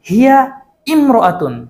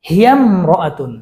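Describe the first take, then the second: First: The words are separated, with the initial vowel pronounced. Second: The words run together without the initial vowel. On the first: The speaker calls it wrong. "এভাবে বলো হিয়া ইমরাতুন তাহলে ভুল হবে" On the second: The speaker calls it right. "উচ্চারণ হচ্ছে এভাবে হিয়ামরাতুন"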